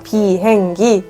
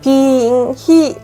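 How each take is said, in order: First: The last syllable begins with a g sound. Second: The last syllable begins with an h sound. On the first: This is the standard way to say the word. The speaker calls it right. "비행기 해봐" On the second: A toddler who cannot yet say the word says it this way. The speaker calls it wrong. "비행히 하고 말했어요"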